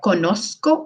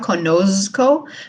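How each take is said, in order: First: The z is a soft s sound. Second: The z is a buzzing English z sound. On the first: The speaker calls it right. "but conozco, like more like a soft s" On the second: The speaker calls it wrong. "we don't make it sound like English z, so it's not conozco"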